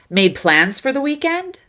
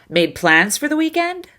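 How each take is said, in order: No difference in how they are said.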